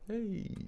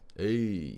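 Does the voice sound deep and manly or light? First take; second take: light; deep. First: It is said in a lighter, less manly voice. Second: It is said in a deeper, manlier voice.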